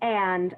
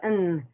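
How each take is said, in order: First: The word is said in full with its ending. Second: The word is cut down to a bare n. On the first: The speaker calls it right. "instead of saying and" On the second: The speaker calls it wrong. "I heard a lot of n"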